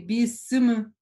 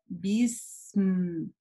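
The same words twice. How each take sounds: First: The s and m sounds are cut short. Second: The s and m sounds are held long. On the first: The speaker calls it wrong. "не следует говорить бисм" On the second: The speaker calls it right. "внимательно нам нужно соблюдать вот эту длину звука син и звука мим"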